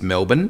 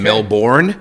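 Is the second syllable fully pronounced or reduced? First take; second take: reduced; fully pronounced. First: The second syllable is reduced, Australian style. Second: The second syllable is fully pronounced, American style. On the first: "We're just very lazy" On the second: "You guys say the words the way they're actually written"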